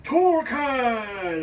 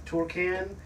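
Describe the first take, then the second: First: Torcan! boomed much higher and louder, drawn out and falling like a hero's name; superhero announcement. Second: Torcan? tried out as a puzzled question, TOR-can rising at the end; tentative try at the name. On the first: Vlogger hamming up the brand name as a superhero, booming. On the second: Vlogger sounding out the fan's brand name, unsure. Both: Shown as a demonstration. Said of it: "It sounds like a superhero".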